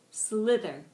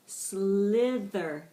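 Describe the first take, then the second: First: Said in the usual way. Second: "Slither" drawn out long through both syllables; slowed-down pronunciation. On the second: Shown as a demonstration. Teacher modelling "Slither" for the class, slowed right down. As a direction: stretch out "Slither" slowly and firmly. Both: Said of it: "with varying degrees of speed".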